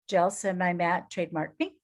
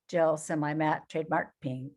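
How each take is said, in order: First: The voice lilts upward at the end. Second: The voice droops downward at the end. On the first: The speaker sounds upbeat. The speaker calls it right. "Lilt in your voice" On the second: The speaker sounds sad. The speaker calls it wrong. "or do you go Eeyore?"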